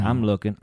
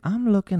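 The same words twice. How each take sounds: First: Said in the usual way. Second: High, pressed, defensive; high insistent. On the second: Real, not acted. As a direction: squeak it out while searching. Repeating while searching roster.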